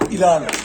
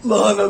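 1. Kelime ağız biçiminde söyleniyor, 'i' ile başlıyor. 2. Kelime standart biçimde söyleniyor, 'la' ile başlıyor. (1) "söyleyişi ağızda ilan olduğu için nasıl duyduysa öyle alışmış" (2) "Halbuki lahana yazıyor"

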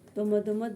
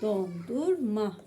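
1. Kelime kısaltılmış, ortadaki sesler atılmış. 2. Kelime tam söyleniyor, bütün heceler var. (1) "Doma değil"

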